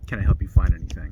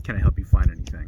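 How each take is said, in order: First: It is said in a suspicious tone. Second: It is said in a suspicious tone.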